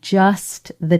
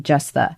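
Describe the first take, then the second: First: The T at the end of just is pronounced. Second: The T at the end of just is dropped. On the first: "you're over pronouncing it, over articulating it... you will say the T" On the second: "most of the time, I would say you would say just the"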